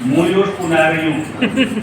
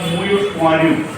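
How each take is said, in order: First: It is said with a haughty, swaggering tone. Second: It is said in a plain, neutral manner. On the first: "थोड़ा लड़का और ठसक आ जाएगी" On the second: "ब्राह्मण परिवार कहेगा"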